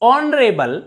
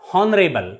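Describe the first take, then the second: First: The word starts with no h sound. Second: The word starts with an h sound. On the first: The speaker calls it right. "H is always silent" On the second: The speaker calls it wrong.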